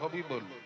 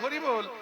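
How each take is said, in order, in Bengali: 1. র-ধ্বনির জায়গায় ব-ধ্বনি উচ্চারিত হয়। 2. দ্বিতীয় ব্যঞ্জনটি একটি স্পষ্ট র-ধ্বনি। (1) "কিন্তু দাঁত নাই, তো তখন উচ্চারণ হবে হবিবোল" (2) "বদন বলতে চাইবে হরিবোল"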